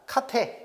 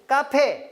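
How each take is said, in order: First: The first consonant is plain. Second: The first consonant is tense. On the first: The speaker calls it right. "이런 식으로" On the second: The speaker calls it wrong. "안 됩니다"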